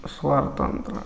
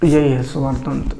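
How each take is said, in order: First: Breathy voiceless repeat of the term; whispered. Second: Said in the usual way. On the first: Shown as a demonstration. Teacher whispers the term back to the class. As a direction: drop to a whisper on स्वर तंत्र.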